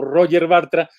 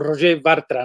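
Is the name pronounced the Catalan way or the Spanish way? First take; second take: Spanish; Catalan. First: The name is said with a usual Spanish pronunciation. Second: The name is said with a Catalan pronunciation. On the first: This is how people usually say it. "suele pronunciarse su nombre como" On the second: This is how it really should be said. "en realidad sería algo así como"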